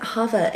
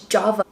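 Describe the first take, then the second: First: The word begins with an H sound. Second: The word begins with a J sound. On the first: The speaker calls it wrong. "I keep calling it Hava" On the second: The speaker calls it right. "it's Java"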